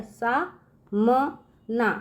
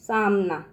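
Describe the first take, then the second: First: Sa, ma, na split with pauses for सा म ना; syllable by syllable. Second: Said in the usual way. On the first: Shown as a demonstration. Teacher sounding out the word for the children, syllable by syllable. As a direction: break सा म ना into slow separate syllables.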